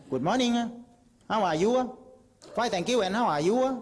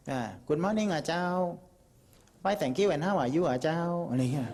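First: High, loud English in a Southern Thai accent; English greeting with a sharp Southern Thai lilt and อ่ะ. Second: Slow English with a Northern Thai lilt and เจ้า; Northern Thai accent. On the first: Southerner greeting a foreigner in English, high Southern Thai accent. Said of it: "ยิ่งภาคใต้ยิ่งเสร็จเลย". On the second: Northerner greeting a foreigner in English, slow Northern Thai accent. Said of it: "คนเหนือพูดภาษาอังกฤษ". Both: Shown as a demonstration.

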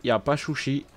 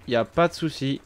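First: Souci said as chouchi in a put-on Chinese accent; lightly imitating a Chinese accent on chouchi; mock Chinese accent. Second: Said in the usual way. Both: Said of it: "Comme les Chinois là".

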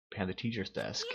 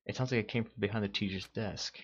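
First: Urgent hushed shout; whisper-shout. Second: Said in the usual way. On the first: Acted. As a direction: shout it but keep it hushed. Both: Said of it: "Not gonna risk screaming".

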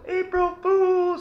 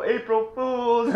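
First: Very high, slow drawn-out call; yelled out window. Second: High, slow drawn-out call, not as high as the first; called out again, less high. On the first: Cree mock-calling after him from the window, very high and drawn out. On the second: Cree calling out again, high and drawn out but a step down. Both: Retold or imitated. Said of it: "I'll yell out the window".

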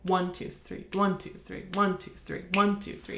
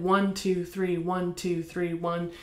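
First: "One" leaned on at the start of each bar; stress on one. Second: Even counting, no beat stressed; not counted this way. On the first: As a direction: lean on every "one", light "two, three". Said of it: "but it's counted". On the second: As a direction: count every beat the same, with no accent. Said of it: "And it's not counted". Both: Shown as a demonstration.

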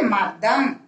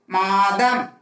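First: மதம் with a short first "a"; short vowel. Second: மாதம் with the "aa" held long; long vowel. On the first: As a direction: keep the opening of மதம் brief. (மதம் குறிலாக, குறுக்கி) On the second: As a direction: stretch the first vowel of மாதம். (மாதம் நெடிலாக, நீட்டி) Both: Shown as a demonstration. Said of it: "மாதம் எழுதணும்".

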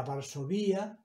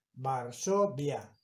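First: "Varsovia" said as var-so-VÍ-a; stress on the í. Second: "Varsovia" slowly as var-SO-via; syllable by syllable. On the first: Teacher showing the word as if it had a tilde, stress on the í. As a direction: move the stress in "Varsovia" onto a separate í. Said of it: "tendría que haberle puesto la tilde". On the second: Teacher reading a word without tilde, syllable by syllable. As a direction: split "Varsovia", stress on SO, via as one syllable. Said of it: "como no lleva tilde". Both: Shown as a demonstration.

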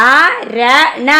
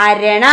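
First: അരണ stretched very slowly, syllable by syllable; read along slowly. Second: Said in the usual way. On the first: Shown as a demonstration. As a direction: model അരണ slowly for the kids to repeat. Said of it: "എൻ്റെ കൂടെ വായിക്കട്ടോ". (അരണ വളരെ പതുക്കെ, കൂടെ വായിക്കാൻ) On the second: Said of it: "എന്താ വായിക്ക?".

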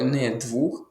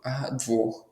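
First: Двух said slowly with an У vowel; wrong form with У. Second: Двох with a clear О vowel; correct form with О. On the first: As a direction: say the mistaken двух, with У instead of О. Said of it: "Двох неправильно". (неправильне двух, через У) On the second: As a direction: model двох with О, not У. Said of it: "Числівник два лише має О". (правильне двох, через О) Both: Shown as a demonstration.

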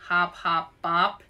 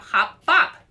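First: A lightly sceptical hop hop bop; doubtful question. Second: High, loud and bouncy; bright game name. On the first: Arnold questioning Louise's silly game, mildly doubtful. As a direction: repeat it back, unconvinced. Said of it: "Arnold raised one eyebrow". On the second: Louise proposing her game to Arnold, bouncy and loud. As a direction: announce it like the best game ever. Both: A narrator's reading.

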